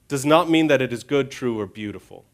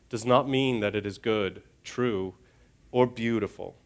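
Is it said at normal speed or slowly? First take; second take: normal speed; slowly. First: It is said at a normal pace. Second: It is said more slowly.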